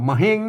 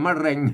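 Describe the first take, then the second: First: The second syllable starts with an h sound. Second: The second syllable starts with an r sound. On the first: "ภาษาละนาวนะมะเฮง" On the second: "ภาษาไทยมะเร็ง"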